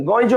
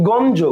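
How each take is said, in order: First: গঞ্জ said with an i-glide, like "goinj"; literal ইয় sound. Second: গঞ্জ said "gonjo", with a plain n before j; dental n. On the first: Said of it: "ইয়র উচ্চারণটা আপনি কি করতেছেন". (গঞ্জ-কে "গইঞ্জ" বলে উচ্চারণ) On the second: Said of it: "দন্ত ন দিয়ে করতেছেন". (গঞ্জ-তে দন্ত্য ন দিয়ে "গন্জ" উচ্চারণ) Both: Shown as a demonstration.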